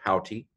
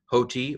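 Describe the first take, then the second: First: "hauti" with an open first vowel; open-vowel pronunciation. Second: "hoti" with a long o, HO-tee; long-o pronunciation. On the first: Greek teacher showing the other pronunciation, "hauti" with open vowel. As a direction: say "hauti" with a wider vowel than hoe. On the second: Greek teacher showing one pronunciation, "hoti" with long o. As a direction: say "hoti" starting like hoe. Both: Shown as a demonstration. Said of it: "depending how you pronounce it".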